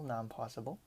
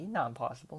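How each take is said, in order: First: Much softer, trailing-off echo of not impossible; quiet repeat. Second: Said in the usual way. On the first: Real, not acted. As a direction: murmur it again to yourself. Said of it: "repeated phrase, trailing". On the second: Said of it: "repeated phrase".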